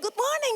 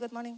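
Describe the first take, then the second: First: The greeting sounds bright and cheerful. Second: The greeting sounds flat and tired. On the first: The greeter is upbeat and friendly toward others. The speaker calls it right. "he's so positive" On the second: The greeter is worn out and reluctant. The speaker calls it wrong. "gue lagi capek"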